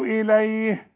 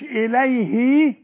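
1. الكلمة بتخلص بصوت h ساكن. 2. الكلمة بتخلص بحرف صوت بعد الـ h. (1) "سكني الهاء" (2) "مش إليه"

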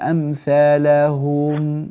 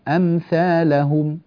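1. الكلمة مُبطأة مع مدّ الحركات. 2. تُتلى الكلمة بوتيرة عادية وثابتة.

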